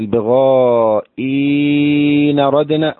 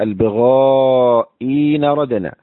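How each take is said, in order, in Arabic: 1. الحركة ممدودة طويلة، نحو ست حركات. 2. الحركة قصيرة، نحو حركتين. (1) "فلك المد 6 حركات باعتبار ما قبل النقل" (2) "ولك الإبدال مع المد 2 حركات باعتبار ما بعد النقل"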